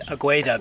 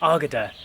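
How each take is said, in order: First: The U sound is pronounced. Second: The U sound is left out. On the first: The speaker calls it wrong. "we've always said Agueda" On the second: The speaker calls it right. "apparently you don't pronounce the U"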